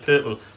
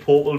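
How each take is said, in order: First: Purple is said in a more standard accent. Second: Purple is said in a broad local accent. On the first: This is the usual way of saying it. "Instead of purple" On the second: This is how many older local people say it. "There's loads of people up here say purple"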